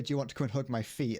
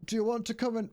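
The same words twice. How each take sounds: First: Said in the usual way. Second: High-pitched cartoon quote; lifted, high character voice; King Julian. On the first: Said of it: "I was gonna say". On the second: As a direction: start the quote in a high, put-on voice. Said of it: "That's not what he says".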